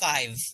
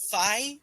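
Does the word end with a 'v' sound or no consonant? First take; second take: v; no consonant. First: The word ends with a v sound. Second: The word ends without a v sound. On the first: The speaker calls it right. "instead of five" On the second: The speaker calls it wrong. "fi instead of five"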